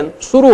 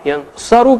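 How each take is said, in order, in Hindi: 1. दूसरे अक्षर में 'u' स्वर है। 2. दूसरे अक्षर में 'a' स्वर है। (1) "ऊ की आवाज हो गई आ के बजाय सा पे" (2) "ऊ की आवाज हो गई आ के बजाय सा पे"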